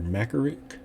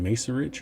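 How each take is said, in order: First: Macerich said MACK-er-ick; "Macerich" as MACK-er-ick, hard c; hard-c pronunciation. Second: Macerich said MAY-sur-itch; "Macerich" as MACE-rich, soft c; soft-c pronunciation. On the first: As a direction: say Macerich with K sounds in the middle and at the end. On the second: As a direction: say Macerich with an S sound and a final "ch". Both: Shown as a demonstration. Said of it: "Is it Macerich or Macerich?".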